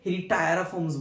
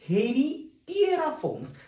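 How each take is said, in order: First: The third syllable has an 'eye' sound. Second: The third syllable has an 'ee' sound. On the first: The speaker calls it wrong. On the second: The speaker calls it right.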